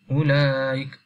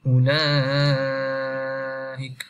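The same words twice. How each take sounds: First: The vowel before the hamza is held briefly. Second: The vowel before the hamza is held very long. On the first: "kita baca dua harakat" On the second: "kita baca enam harakat"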